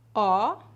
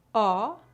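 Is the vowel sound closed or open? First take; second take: open; open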